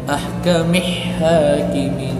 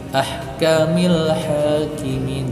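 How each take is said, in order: First: The L sound is skipped and merged. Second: The L sound is clearly pronounced. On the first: The speaker calls it wrong. "jangan dibaca ahkamih hakimin, lamnya terskip" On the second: The speaker calls it right. "lam ini bisa dibaca"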